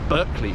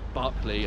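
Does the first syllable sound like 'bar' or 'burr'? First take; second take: burr; bar. First: The first syllable sounds like 'burr'. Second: The first syllable sounds like 'bar'. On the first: "people across the pond, and in fact also Cockneys, tend to pronounce it Berkeley" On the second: "rather than Barclay"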